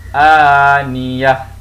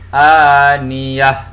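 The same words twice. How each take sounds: First: The word ends with a silent h sound. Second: The word ends with a silent h sound.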